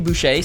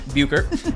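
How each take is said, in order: First: The surname is said as Boucher. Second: The surname is said as Buchert. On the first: Other people often say the name this way. The speaker calls it wrong. "sometimes people. Boucher?" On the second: This is how she says her own name. The speaker calls it right. "the right way to say her name"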